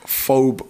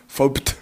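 First: The name ends without a T sound. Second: The name ends with a T sound. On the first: The speaker calls it right. "but the T's silent" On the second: The speaker calls it wrong. "loads of people pronounce it wrong. They pronounce it Phobed"

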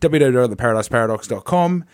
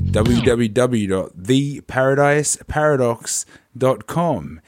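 First: It is said fast. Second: It is said slowly.

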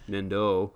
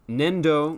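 First: The final O vowel is held longer. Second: The final O vowel is short. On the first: It means telekinesis. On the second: It means clay.

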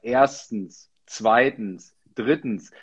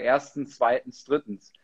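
First: Each item is stressed strongly, with gestures. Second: Each item is said plainly, without strong stress.

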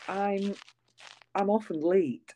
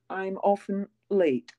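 First: It is said in a Scottish accent. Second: It is said in an English accent. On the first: "I mean, I say, ooh" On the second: "Whereas you would say"

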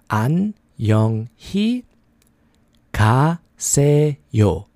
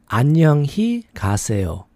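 First: It is said at a slower pace. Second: It is said at a faster pace.

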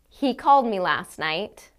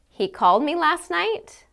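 First: It is said as a plain statement. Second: It is said as a question. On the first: The speaker is simply reporting a fact. "I can say it as a statement of fact" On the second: The speaker is asking whether he called. "I can say it as a question"

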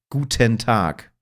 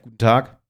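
First: Guten is clearly stressed, Hannover style. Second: Guten is mumbled and reduced.

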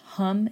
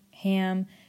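First: The vowel sounds like the u in cup. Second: The vowel sounds like the a in cat. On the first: "H-A-M is pronounced hum" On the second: "You will hear some people pronounce it ham"

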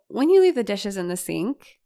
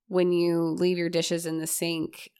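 First: The pitch moves widely up and down. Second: The pitch stays flat within a narrow range. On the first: "That feels really different to hear than" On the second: "So a monotone would sound like this"

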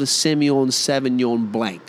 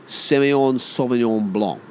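First: It is said in a broad Australian accent. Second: It is said in a French-style way.

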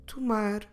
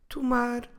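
No difference in how they are said.

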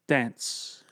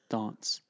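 First: It is said in an American accent. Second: It is said in a British accent.

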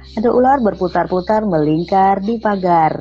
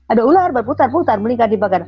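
First: The phrase is said in a calm, neutral voice. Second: The phrase is said in a harsh, angry voice. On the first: "ikutin saya ya"

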